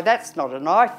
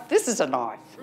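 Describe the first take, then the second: First: Lightly quoted film line, rising on knife; a hint of movie-hero put-down, left hanging; Crocodile Dundee. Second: Low movie-hero boast, falling on knife; Crocodile Dundee. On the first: Quoting an Australian film to the audience, light impression. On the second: Acted. Capping an Australian film quote for the audience, low impression. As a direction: drop the voice for the punchline. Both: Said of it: "Crocodile Dundee".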